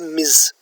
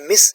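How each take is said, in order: First: The word ends with a z sound. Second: The word ends with an s sound. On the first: The speaker calls it right. "it is pronounced as Miz" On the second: The speaker calls it wrong. "is not pronounced as Miss"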